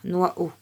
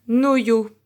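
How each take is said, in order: First: It sounds like nwa-o, with no y sound. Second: It sounds like no-yo, with a y sound. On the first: "Si on lit comme un I" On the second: "comme le son Y"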